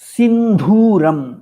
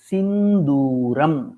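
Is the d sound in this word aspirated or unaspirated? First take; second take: aspirated; unaspirated. First: The d sound is aspirated, with a breathy release. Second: The d sound is unaspirated, with a plain release. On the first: The speaker calls it wrong. "न तु महाप्राणः" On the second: The speaker calls it right. "सिन्दूरम् दकारः अल्पप्राणः"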